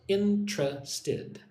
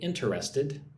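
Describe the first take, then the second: First: The word is said with three syllables. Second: The word is said with four full syllables. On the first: The speaker calls it right. "like it has three syllables" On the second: The speaker calls it wrong. "I do not say interested"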